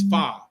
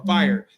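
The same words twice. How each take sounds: First: It is said with an African American pronunciation. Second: It is said with a standard pronunciation. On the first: The speaker calls it right. "It's fire. F F Y R... That's how we talk" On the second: The speaker calls it wrong. "it's not even fire"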